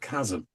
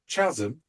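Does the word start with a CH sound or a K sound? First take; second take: K sound; CH sound. First: The word starts with a K sound. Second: The word starts with a CH sound. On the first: The speaker calls it right. "instead of chasm" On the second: The speaker calls it wrong. "he pronounced the word chasm ... because that's how he saw it"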